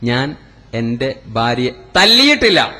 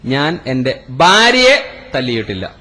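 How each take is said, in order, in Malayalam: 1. അവസാന വാക്കിലാണ് ഊന്നൽ. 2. മൂന്നാമത്തെ വാക്കിലാണ് ഊന്നൽ. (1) "ചവിട്ടിയിട്ടേ ഉള്ളൂ" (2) "ഉമ്മാനെയാണ് തല്ലിയത്"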